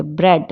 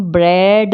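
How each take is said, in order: First: ब्रेड with a short e; ब्रेड, quick short vowel; silent A. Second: ब्रेड with a long, drawn-out vowel; ब्रेड with the a wrongly heard; sounded A. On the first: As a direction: say ब्रेड as bred, short and low. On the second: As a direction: say ब्रेड as braid, vowel stretched. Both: Shown as a demonstration. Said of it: "हम ब्रेड नहीं बोलते".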